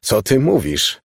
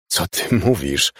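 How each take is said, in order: First: Dismayed. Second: Slow, stunned question; choked out. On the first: Father repeats his question to mother, dismayed. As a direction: repeat it in mild consternation. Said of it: "Był zupełnie skonsternowany". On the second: Stunned father questions mother, choking the words out. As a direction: force the question out slowly, mildly choked. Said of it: "wykrztusił ojciec". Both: A narrator's reading.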